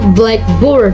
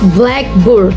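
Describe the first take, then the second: First: The stress falls on the word board. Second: The stress falls on the word black. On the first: "while praise stress the second" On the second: It names a board for writing on in class. "Compounds usually have stress on the first word"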